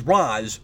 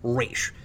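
First: The name is said the newer film way. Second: The name is said the traditional way. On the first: "like in Batman Begins" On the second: "the way it's traditionally considered correct"

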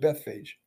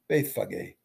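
First: The name is said with an anglicized pronunciation. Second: The name is said with its original pronunciation.

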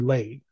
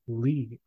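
First: The vowel sounds like the one in 'say'. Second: The vowel sounds like the one in 'see'. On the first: The speaker calls it wrong. "I pronounced it as Lay" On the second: The speaker calls it right. "I said Lee because that's what my brain said. And that was right"

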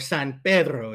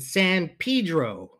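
First: San Pedro is said with a Spanish pronunciation. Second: San Pedro is said with an English pronunciation. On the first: The speaker calls it right. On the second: The speaker calls it wrong.

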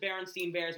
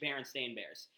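First: The second part sounds like 'steen'. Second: The second part sounds like 'stain'. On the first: This is how most people say the name. The speaker calls it wrong. "everyone Says Berenstain Bears" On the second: This is the name's actual form. The speaker calls it right. "when it's actually Berenstain Bears"

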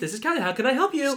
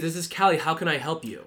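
First: The voice is pitched high. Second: The voice is pitched low. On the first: The speaker calls it wrong. "You're not supposed to do that" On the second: The speaker calls it right. "you're supposed to do the opposite"

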